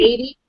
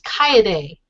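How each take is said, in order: First: The name sounds like the English name Katie. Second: The name is pronounced with its original vowels, Kaede. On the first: The speaker calls it wrong. "I always thought it was Katie, but it's not" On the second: The speaker calls it right. "It's Kaede"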